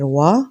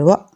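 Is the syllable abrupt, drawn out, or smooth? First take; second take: smooth; abrupt. First: The vowel is short, soft and smooth. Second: The vowel is cut off with a jerk. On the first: The speaker calls it right. "आराम से नरमी से पढ़ना है" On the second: The speaker calls it wrong. "झटका लग जाता है"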